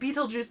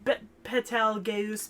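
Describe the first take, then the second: First: The name starts with a long 'beet' sound. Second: The name starts with a short 'bet' sound. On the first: This is the plain English name of the star. The speaker calls it right. "say fucking Beetlejuice" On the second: This is the Japanese-influenced form carried into the dub. The speaker calls it wrong. "it's like Bet"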